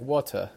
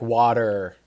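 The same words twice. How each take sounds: First: It is said in a British/Australian accent, no R. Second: It is said in an American accent, strong R.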